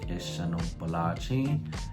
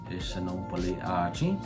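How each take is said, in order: First: The final vowel drops and achi is joined on. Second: The final vowel stays and achi is separate. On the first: The speaker calls it right. "to make it sound more fluid" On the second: The speaker calls it wrong. "it sounds weird if you say ishanopole achi"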